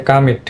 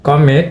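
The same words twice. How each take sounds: First: "কামিট" with a schwa-like "কা" first; native pronunciation. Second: "কমিট" in a Bengali accent, full "ক" vowel; Bengali-accented "কমিট", first vowel unreduced. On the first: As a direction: say "কামিট" as kuh-MIT. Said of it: "উচ্চারণটা হবে". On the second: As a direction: say "কমিট" as kaw-mit, Bengali style. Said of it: "বাংলা অ্যাকসেন্টে আমরা বলি". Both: Shown as a demonstration.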